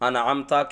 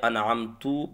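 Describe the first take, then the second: First: The word ends with an 'a' vowel. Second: The word ends with a 'u' vowel. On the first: The speaker calls it right. "अनअमता ताप ज़बर है" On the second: The speaker calls it wrong. "पेश पढ़ दिया"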